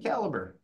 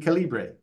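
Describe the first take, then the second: First: The name is said with a North American pronunciation. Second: The name is said with a Latin American pronunciation. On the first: This is how it is said in North America. "If I'm in the project in Newfoundland, it'll be Calibre" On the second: This is how it is said in Nicaragua. "if we're down in Nicaragua, it'll be Calibre"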